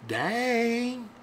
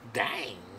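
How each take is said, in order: First: It sounds admiring and impressed. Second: It sounds shocked and dismayed. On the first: The person looks attractive. "admiring a man from behind" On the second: The person looks unattractive. "there he is, all tore up"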